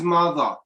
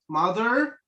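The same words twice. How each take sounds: First: The final R sound is silent. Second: The final R sound is pronounced. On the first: "British English is mother. And this one is mute" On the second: "American is mother"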